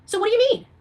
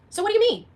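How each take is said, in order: Both takes have the same delivery.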